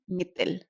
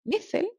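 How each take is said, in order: First: "مثل" with t in place of th; "مثل" with a hard t stop in the middle; T sound. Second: "مثل" with th as in "think"; th sound. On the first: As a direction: say "مثل" as mitil. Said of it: "with a T". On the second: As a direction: say "مثل" as mithil. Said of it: "that was the letter th". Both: Shown as a demonstration.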